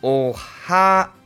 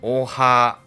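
First: The second syllable is higher than the first. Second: Both syllables are at the same pitch.

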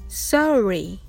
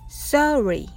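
Both takes have the same delivery.

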